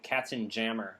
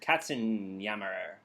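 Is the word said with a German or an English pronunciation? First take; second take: English; German. First: It is said with an English pronunciation. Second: It is said with a German pronunciation. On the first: This is how they used to say it. The speaker calls it wrong. "but I think we used to pronounce it" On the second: This is the word's real name. The speaker calls it right. "It was called"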